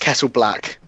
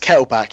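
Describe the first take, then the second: First: The last syllable is said with an L sound. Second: The last syllable is said without an L sound. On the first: The speaker calls it right. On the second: The speaker calls it wrong. "I always read it as Kettleback"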